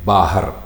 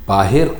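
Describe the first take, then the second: First: The second syllable has an 'a' vowel. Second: The second syllable has an 'i' vowel. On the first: The speaker calls it right. "लफ्ज़ है बाहर" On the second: The speaker calls it wrong. "बाहिर कोई लफ्ज़ नहीं है"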